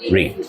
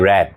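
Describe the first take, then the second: First: The vowel is a long ee sound. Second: The vowel is a short e sound. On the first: It is the present tense. "এমনি পড়া ইংরেজি কি?" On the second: It is the past tense. "একই, তবে উচ্চারণটা change হবে।"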